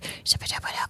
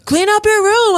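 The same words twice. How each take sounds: First: It is said in a creepy whisper. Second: It is said in a normal, full voice.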